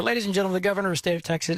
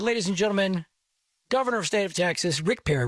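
First: Rushed recap. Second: Emcee introduction. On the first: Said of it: "anyway, he comes up". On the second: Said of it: "I invite, I said". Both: Retold or imitated.

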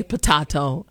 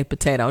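First: "potato" said the British way, puh-TAH-toe. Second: "potato" said the American way, puh-TAY-toe. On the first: Host teases her stickler mother, British "potato". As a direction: say "potato" in a British twang, ah in the middle. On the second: Host gives her own "potato", American ay. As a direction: say "potato" with a plain ay in the middle. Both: Shown as a demonstration. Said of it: "go back to my British twang".

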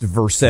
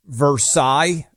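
First: "Versailles" as ver-SALES; local Kentucky pronunciation. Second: "Versailles" the French way, ver-SIGH; French pronunciation. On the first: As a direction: say "Versailles" as spelled, rhyming with sales. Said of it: "being pronounced Versailles in". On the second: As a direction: end "Versailles" on an eye sound. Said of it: "like Versailles being pronounced Versailles". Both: Shown as a demonstration.

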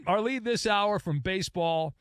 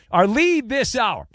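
First: Said in the usual way. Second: Louder, higher news lead; announcer voice. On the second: Shown as a demonstration. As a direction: announce the top story. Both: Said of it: "Don't bury the lead".

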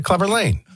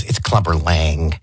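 First: Higher-pitched LANG with a long "ay"; Lang said as lane. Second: Slow, lower, LANG rhyming with bang; Lang with short a. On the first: Host repeats his own way of saying the name, LANG like "lane". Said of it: "And I said". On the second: Co-host corrects how the name is said, LANG with short a. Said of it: "So Red goes". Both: Retold or imitated.

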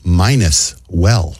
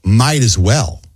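First: "minus well", might as run together as minus; slow "minus well" with an N in place of T; misheard saying. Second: "might as well" with a clear T in might; correct phrase. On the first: Host shows listeners' mistake, drawn-out "minus well". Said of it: "a lot of people thought it was". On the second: Host gives the proper saying, "might as well" with a T. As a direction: say "might as well" as separate words, might ending in T. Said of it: "Instead of saying". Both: Shown as a demonstration.

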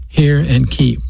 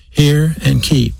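First: Said in the usual way. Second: "hear" and "keep" each drawn out, slow and weighted; slow stress on hear and keep. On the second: Shown as a demonstration. Preacher driving home "hear and keep" to the congregation, slow and stressed. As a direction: spell out "hear and keep" slowly, each word leaned on. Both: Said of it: "I'm say it again".

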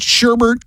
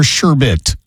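First: "sherbet" with an extra R, pitched higher, as SHER-bert. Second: "sherbet" as SHER-bit, no second R; sherbet without added R. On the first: Radio host asks co-host which is right, sherbet said SHER-bert. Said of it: "never heard it pronounced that way". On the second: Radio host offers co-host the other choice, sherbet said SHER-bit. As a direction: say "sherbet" ending in a plain -bit. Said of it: "not actually a, an R". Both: Shown as a demonstration.

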